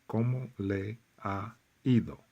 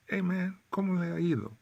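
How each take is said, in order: First: Said in the usual way. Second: Much higher, loose and breezy; "Hey man, ¿cómo le ha ido?" thrown off casually; casual street greeting. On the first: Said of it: "Nobody's gonna say". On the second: Shown as a demonstration. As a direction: toss it off like greeting a buddy. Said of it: "They're gonna say".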